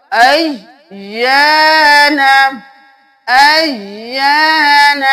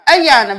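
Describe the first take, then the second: First: Slow chanted Ayan, pressing the double y and holding the long aa; sung, lean on the y of Ayan, then stretch the alif; sung, doubled y, stretched. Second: Ayan said in a plain quick way, without the held double y; mistaken short reading. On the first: Teacher models the tashdeed for students, slow chanted Ayan. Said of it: "تشدید ہے تو دو بار ادا ہوگا". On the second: Teacher shows what not to do, unstretched Ayan. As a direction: run through Ayan without lingering on y or aa. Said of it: "Ayan بھی نہیں کرنا". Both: Shown as a demonstration.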